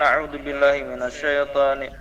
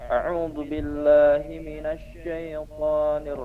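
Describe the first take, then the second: First: The phrase is recited quickly and rushed. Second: The phrase is recited at a slow, careful pace. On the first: The speaker calls it wrong. "Jangan terlalu cepat situnya lah" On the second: The speaker calls it right.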